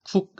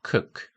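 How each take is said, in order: First: The vowel is a tense Korean-style 'u'. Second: The vowel is a short, lax breathy sound. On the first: The speaker calls it wrong. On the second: The speaker calls it right.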